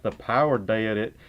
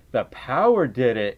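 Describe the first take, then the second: First: Lower, thick Southern "did"; childhood Southern accent. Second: Said in the usual way. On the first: Shown as a demonstration. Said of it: "get rid of my Southern accent". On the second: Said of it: "I would really say it like".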